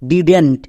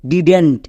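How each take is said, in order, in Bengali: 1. এটি একটি সংকুচিত শব্দ হিসেবে বলা হয়। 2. এটি একটি সংকুচিত শব্দ হিসেবে বলা হয়।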